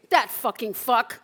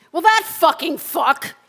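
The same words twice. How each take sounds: First: Said in the usual way. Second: High and loud, spat out; loud furious curse. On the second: Acted. Cursing the new boyfriend, loud furious curse. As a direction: burst with rage. Rage at ex's new man.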